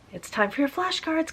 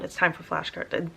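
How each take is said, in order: First: It is said in a cheerful, playful tone. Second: It is said in a stern, bossy tone.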